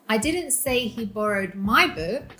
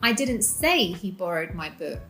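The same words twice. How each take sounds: First: The stress falls on the word 'my'. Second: The stress falls on the word 'say'. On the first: Another person's book was borrowed. "He borrowed your book" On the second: Something else was said instead. "I said something else"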